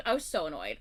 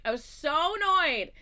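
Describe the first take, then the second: First: Said in the usual way. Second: Higher, louder, slow stress on annoyed; emphatic annoyance. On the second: Shown as a demonstration. Telling friends how annoyed she was, slow loud emphatic. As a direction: drag out how annoyed you were.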